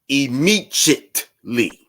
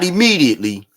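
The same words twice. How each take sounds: First: The middle consonant is a J sound. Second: The middle consonant is a plain D sound. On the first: "He added the J in there" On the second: "Not immediately"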